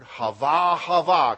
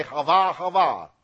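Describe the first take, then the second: First: "hava, hava" said loud as HAH-vah; saying hava. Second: "hava, hava" repeated loudly as HAH-vah; saying hava. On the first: Preacher demonstrating the Hebrew word "hava" to the congregation, said loudly. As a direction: sound out "hava" twice, louder. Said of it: "Can we say". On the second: Preacher asking the congregation to echo "hava", said loudly. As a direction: lead them in "hava", twice. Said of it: "Can we say "hava, hava"?". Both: Shown as a demonstration.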